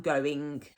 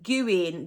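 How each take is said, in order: First: Said in the usual way. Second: GOOING with an "oo", "goo-in". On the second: Shown as a demonstration. Teacher explains her habit, GOOING said "goo-in". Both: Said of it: "gooing just means".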